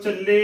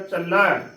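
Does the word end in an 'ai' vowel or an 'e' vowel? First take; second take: e; ai. First: The word ends in a plain 'e' vowel. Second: The word ends in an 'ai' vowel. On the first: The speaker calls it wrong. "ਇਸ ਦਾ ਗਲਤ ਉਚਾਰਨ ਹੈ" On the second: The speaker calls it right. "ਇਸ ਦਾ ਸਹੀ ਉਚਾਰਨ"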